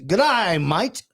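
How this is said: The word 'day' has an 'eye' vowel sound. The speaker calls it right. "It's good eye, mate. ... And that is Australian"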